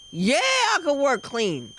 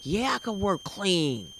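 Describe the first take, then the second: First: Eager agreement. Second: Said in the usual way. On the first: Acted. Comic agreeing once she gets paid, eager drawn-out yes. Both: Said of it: "you'll be like".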